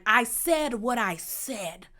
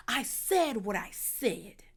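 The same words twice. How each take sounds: First: Slow, emphatic catchphrase delivery; deliberate imitation with stretched-out words; Tyler Perry voice. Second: Slow, softer theatrical drawl in imitation; hushed, put-on stage-diva delivery; Tyler Perry voice. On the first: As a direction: draw out each word like a stage diva. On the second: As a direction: stretch the line out, softly melodramatic. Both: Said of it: "in her best Tyler Perry voice".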